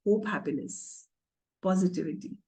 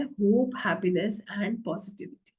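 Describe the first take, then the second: First: Said in the usual way. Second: Slow emphatic list. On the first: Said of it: "कैसा रंग है?". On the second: Shown as a demonstration. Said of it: "पीला रंग क्या बताता है?".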